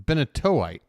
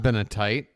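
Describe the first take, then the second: First: The 'o' sound before '-ite' is said aloud. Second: The 'o' sound before '-ite' is left out. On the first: The speaker calls it right. "There's an O in there" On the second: The speaker calls it wrong. "it's not Benetite"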